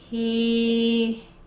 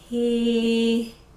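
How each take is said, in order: Both takes have the same delivery.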